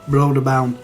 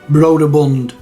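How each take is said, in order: First: It starts with 'Broder' and ends in 'bound'. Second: It starts with 'Broder' and ends in 'bund'. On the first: This is how the speaker said it as a child. "when I was young, I used to say Broderbound" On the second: This is how most people say it. "I would say Broderbund"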